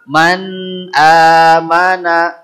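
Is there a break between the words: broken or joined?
joined. The two words run together without a break. The speaker calls it right. "Jadi seperti jadi satu"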